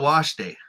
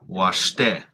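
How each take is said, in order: First: The stress is on the first syllable. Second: The stress is on the second syllable. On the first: The speaker calls it wrong. "They always get the stress wrong, and it always just sounds kind of awkward" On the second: The speaker calls it right. "here's a list of some words where it's the second syllable stress"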